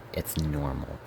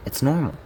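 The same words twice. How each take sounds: First: Quiet self-reassurance. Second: Much higher pitch, falling at the end; insistent self-reassurance. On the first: Narrator calming themself about the brother, quiet self-reassurance. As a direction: tell yourself softly, under control. Reminds self to stay cordial. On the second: Narrator repeating it to convince themself, insistent self-reassurance. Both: Acted.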